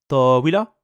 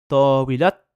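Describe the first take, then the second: First: The word ends on a vowel, no final t. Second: The word ends with a pronounced t sound. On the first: The word stands alone. "on va juste s'arrêter avec le fatha" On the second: The word is the first term of a possessive phrase. "cette tal marbuta sera prononcée"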